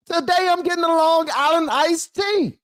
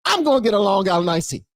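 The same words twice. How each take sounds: First: Very high, giddy put-on voice; hammed-up wild voter. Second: Raised voice of a voter going wild; mildly hammed-up drink announcement; acted reckless voter. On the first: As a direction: squeal it like a voter letting loose. Same voter, repeated far more wildly.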